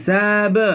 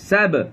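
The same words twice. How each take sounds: First: The syllable is drawn out slowly. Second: The syllable is said quickly and cut short. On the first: The speaker calls it wrong. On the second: The speaker calls it right.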